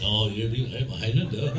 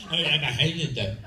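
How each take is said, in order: First: Low mock-Scottish Highlander; proper Highlander accent. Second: Mock French-accented Highlander. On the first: Highlander correcting his wrong accent, low Scottish accent. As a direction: drop low into a put-on Scots accent. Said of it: "I should be speaking with that accent". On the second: Mocking The Highlander's casting, put-on French accent. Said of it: "a French accent".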